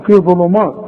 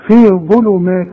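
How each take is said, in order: First: "ظلمات" with a thick, dark final vowel; wrong heavy مات. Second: "ظلمات" with a thin, light final vowel; correct light مات. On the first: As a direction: imitate the mistake, making "مات" heavy. (تقليد الغلط: "مات" مفخمة) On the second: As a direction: model "مات" light, not thickened. ("مات" مرققة في "ظلمات") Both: Shown as a demonstration. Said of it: "ما تقولش مات بقى".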